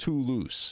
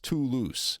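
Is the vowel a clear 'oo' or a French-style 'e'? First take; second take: 'oo'; 'oo'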